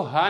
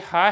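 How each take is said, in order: First: "हा" with a plain loose h; wrong letter articulation. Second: "हा" with a tight throat h, held; louder, careful "हा" from the throat; correct letter articulation. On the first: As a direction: show the mistaken everyday h in "हा". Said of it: "इसको हा नहीं पढ़ना है". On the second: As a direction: model "हा" as the Arabic heavy-breathed pharyngeal h. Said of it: "इसको हा यही अदा करना है". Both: Shown as a demonstration.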